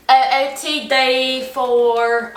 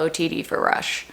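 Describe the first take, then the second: First: Slow, drawn-out sorority OOTD voice; rush TikTok voice. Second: Said in the usual way. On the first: Pretend. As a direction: stretch it like a rush video. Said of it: "I'm gonna try it out today for you". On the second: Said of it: "I'm gonna try it out today".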